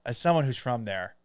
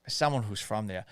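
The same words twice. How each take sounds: First: Said in the usual way. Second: Boston accent with a dropped r. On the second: Shown as a demonstration. Host repeating himself as a Boston local, Boston accent. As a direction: slip into Boston, dropping the r in "there". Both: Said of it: "That's how you do a Boston accent".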